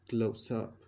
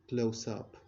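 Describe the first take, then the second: The two takes are said the same way.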